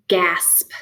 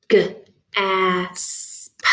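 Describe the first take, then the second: First: Said in the usual way. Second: G alone, then asp stretched into its sounds; chopped into sounds. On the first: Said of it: "time to do some chopping". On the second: Shown as a demonstration. Teacher chopping a word apart, separated phonemes. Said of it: "chop that apart".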